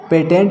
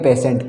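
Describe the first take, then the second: First: The middle consonant is a t sound. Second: The middle consonant is a sh sound. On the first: The speaker calls it wrong. "पेटेंट नहीं पढ़ेंगे" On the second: The speaker calls it right. "टी का उच्चारण क्या हो जाता है? स हो जाता है।"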